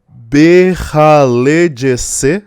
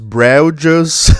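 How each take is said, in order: First: It is said longer, with inserted vowels. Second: It is said short, without inserted vowels. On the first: It is the form in the angelic language. "se for em enoquiano e não em vernáculo" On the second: It is the everyday vernacular form. "em vernáculo"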